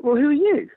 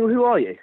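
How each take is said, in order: First: YOU pitched high, thrown back in retort; high-pitched comeback leaning hard on "you"; retold retort. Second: Higher-pitched mock official question; retold police challenge. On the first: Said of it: "And I'm like". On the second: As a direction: lightly imitate a challenging officer. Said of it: "they start saying".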